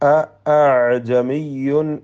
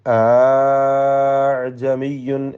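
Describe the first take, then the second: First: A clear glottal stop separates the two opening vowels. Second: The opening vowel is stretched long without a stop. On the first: "ഹംസ ഉച്ചരിക്കുക" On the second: "നീട്ടുക, വ്യക്തമായി അലിഫ് കൊടുക്കുക"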